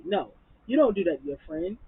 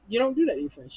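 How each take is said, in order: First: Said in the usual way. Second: Repeated much higher and louder; outraged high-pitched scolding; indignant repeat. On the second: Real, not acted. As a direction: push it up in disbelief.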